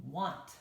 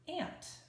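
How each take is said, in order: First: "want" said wahnt, with an ah vowel; "want" rhymes with font; right reading want. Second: "ant" said with the a of cat; "ant" with flat a sound; wrong reading ant. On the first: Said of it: "we don't say the word want". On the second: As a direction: read "ant" like the insect, short a. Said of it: "we don't say the word". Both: Shown as a demonstration.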